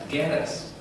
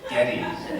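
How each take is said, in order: First: The name ends like the word lettuce. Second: The name ends like the word shreddies. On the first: The speaker calls it right. "No, it's lettuce" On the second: The speaker calls it wrong. "Not shreddies"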